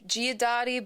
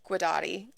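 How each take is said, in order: First: The name is said with an Italian pronunciation. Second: The name is said with an American Midwest pronunciation. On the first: "if you want to do it Italian" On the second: "the Midwest bastardization of it"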